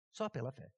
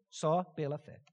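First: Soft repeated murmur; quiet echo. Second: Said in the usual way. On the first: Real, not acted. Repeats phrase softer.

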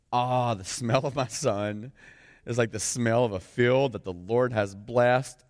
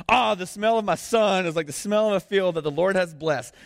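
First: Slow, measured reading of a blessing; scripture reading. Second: Loud, high, fervent proclamation; proclaimed blessing. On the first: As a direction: read the father's blessing slowly, savoring it. First reading of Isaac's blessing. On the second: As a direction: preach the father's blessing at full force. Blessing read again, proclaimed at full force. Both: Acted.

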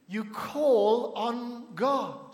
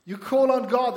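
First: Very slow, each word drawn out; slow emphatic answer. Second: Louder, higher preacher's call; forceful exhortation. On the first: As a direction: stretch CALL, ON and GOD apart. Preacher answers own question slowly. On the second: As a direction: drive it home to the congregation loudly. Repeats it forcefully to congregation. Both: Real, not acted.

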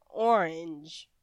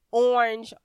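First: "orange" low and drawn into two parts; shifted emphasis. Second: "orange" loud, leaning on OR; emphasis on first part. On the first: Coach showing different emphasis, second part weighted. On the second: Coach showing different emphasis, first part stressed. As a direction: punch the start of "orange" loudly. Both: Shown as a demonstration. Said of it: "Different emphasis on different parts".

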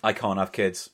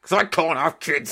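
First: Low, understated mock-sad admission; deadpan confession. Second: Higher, put-on wail of grievance; mock anguished outburst. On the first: Host answers dad-joke teasing, low deadpan confession. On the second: Host cuts off co-host's apology, mock anguished outburst. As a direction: burst out with the sore point.

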